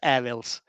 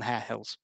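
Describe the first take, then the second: First: The name is said in a relaxed local accent. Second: The name is said in a polished broadcast accent. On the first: "If I'm not on a microphone, that is Hare Hills" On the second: "I realised I'm in radio voice mode there"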